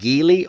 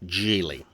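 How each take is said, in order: First: It begins with a hard G sound. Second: It begins with a soft J sound. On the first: The speaker calls it wrong. "for those that keep saying Geely" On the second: The speaker calls it right. "it really should be Geely"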